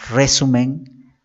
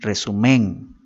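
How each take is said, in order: First: The stress is on the first syllable. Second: The stress is on the third syllable. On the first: "no decimos resumen" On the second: "ni resumen ... No suena correcto"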